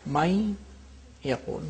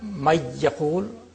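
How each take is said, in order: First: The nasal n sound is kept before the y. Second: The n sound merges fully into the y. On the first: The speaker calls it right. "nasality of the noon is there" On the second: The speaker calls it wrong. "it's not"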